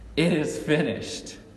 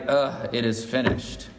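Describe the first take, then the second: First: It is said in a triumphant, proud tone. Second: It is said in a defeated, deflated tone.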